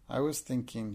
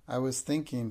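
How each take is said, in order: First: Said in the usual way. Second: Dignified, politely grand. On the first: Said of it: "she answered". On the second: Acted. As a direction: answer like a princess, poised. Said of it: "she answered grandly and politely".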